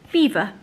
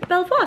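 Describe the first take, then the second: First: It is said exactly like the word 'beaver'. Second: It is said as 'bel-vwar' with a French ending. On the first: The speaker calls it right. "their company is, in fact, called Beaver" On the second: The speaker calls it wrong. "Have you been calling them Belvoir?"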